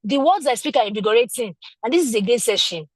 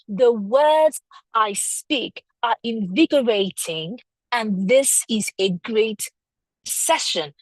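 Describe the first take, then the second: First: The same sentence said briskly, as if you own it; polished, confident delivery. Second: Slow, each word laid out deliberately; slow, careful sentence. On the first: Teacher contrasting a polished speaker for the class, confident. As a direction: say it smoothly and sure. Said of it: "someone else comes and says". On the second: Teacher demonstrating a sentence slowly to students. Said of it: "string a sentence together". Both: Shown as a demonstration.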